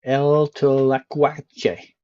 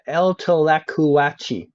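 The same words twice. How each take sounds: First: Slow, careful mock Spanish reading. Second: Slow, drawn-out Spanish retry; mock Spanish. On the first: Streamer reading Mexican road signs aloud, slow mock Spanish. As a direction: sound out the sign like a proud native. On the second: Streamer retrying a Spanish sign, slow mock Spanish. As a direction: try the name again, stretched out proudly. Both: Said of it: "I'm gonna read every sign out in perfect Spanish".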